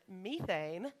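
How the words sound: It is said in an Australian accent. "I'm going to say it with the Australian accent"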